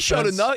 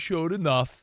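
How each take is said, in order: First: It is said in an upbeat, approving way. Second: It is said in a grudging, dismissive way. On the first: They did well quickly. The speaker calls it right. "How about saying it positive?" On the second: They barely did enough. The speaker calls it wrong. "you're delivering it like they showed enough"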